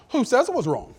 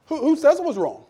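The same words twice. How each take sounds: First: Said in the usual way. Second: Higher and louder, stress on "says"; pressing harder. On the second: Retold or imitated. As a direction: hammer the question home.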